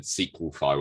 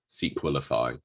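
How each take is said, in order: First: "Sequelfy" in three syllables, SEE-kwul-fy; short pronunciation. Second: "Sequelify" in four syllables, SEE-kwul-i-fy; lower-pitched "Sequelify", middle "i" sounded; longer pronunciation. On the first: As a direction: say "Sequelfy" with nothing between the l and fy. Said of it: "you said Sequelfy". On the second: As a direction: say "Sequelify" with an extra "i" before fy. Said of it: "where I'm saying Sequelify". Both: Shown as a demonstration.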